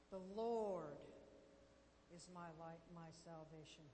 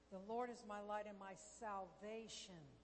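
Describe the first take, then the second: First: The stress falls on the word 'Lord'. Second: The stress falls on the word 'salvation'. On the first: The focus is on who the Lord is. "You're putting the emphasis on the Lord" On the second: The focus is on what salvation includes. "what does salvation include?"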